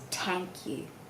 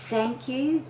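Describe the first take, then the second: First: The first word begins with a T sound. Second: The first word begins with a TH sound. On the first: The speaker calls it wrong. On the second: The speaker calls it right.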